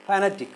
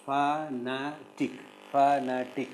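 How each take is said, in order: First: Said in the usual way. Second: Slow "fanatic" in three separate syllables; "fanatic" with each syllable set apart. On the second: Shown as a demonstration. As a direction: break "fanatic" into fa, na, tic. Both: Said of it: "Can you syllabify these words?".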